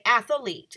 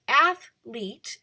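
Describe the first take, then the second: First: The word is said with an extra middle syllable. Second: The word is said with two syllables. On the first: The speaker calls it wrong. "A lot of people say athlete and they add in an A" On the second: The speaker calls it right. "athlete is the correct pronunciation"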